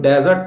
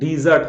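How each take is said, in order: First: The first vowel sounds like 'e' in bed. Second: The first vowel sounds like 'ee' in see. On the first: The speaker calls it wrong. "वो डेजर्ट नहीं होता है" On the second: The speaker calls it right. "डीजर्ट होता है"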